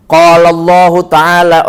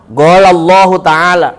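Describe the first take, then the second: First: "Qala" with back k sound; standard qaf. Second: "Qala" as "gola"; voiced g opening "Qala". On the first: The standard recitation before the dialect one, "Qala" as kola. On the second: Mimicking Arabs who can't say kola, "Qala" as gola. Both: Shown as a demonstration.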